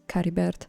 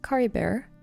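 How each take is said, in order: First: The name is said with Italian sounds. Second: The name is said with plain English sounds.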